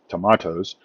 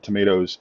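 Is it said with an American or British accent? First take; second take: British; American. First: It is said with a British accent. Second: It is said with an American accent.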